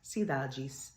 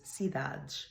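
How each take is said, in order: First: The final E is sounded with a plain S. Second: The final E is muted with a zh-like S. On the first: "In Brazilian Portuguese is pronounced" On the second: "in European Portuguese is cidade, because we have muted E's and zhizhi S's at the end"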